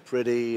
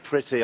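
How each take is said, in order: First: The t in the middle is soft, like d. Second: The t in the middle is crisp and hard. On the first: This sounds American after years of living there. "my T's and my D's have softened" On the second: This is the older English way of speaking. "instead of saying pretty"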